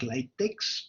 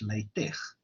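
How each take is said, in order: First: The word is said the way it is spelled. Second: The word is said differently from its spelling. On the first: The speaker calls it wrong. "it's spelled like latex" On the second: The speaker calls it right. "but it's pronounced as LaTeX"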